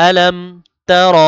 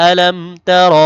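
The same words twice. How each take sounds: The two takes are said the same way.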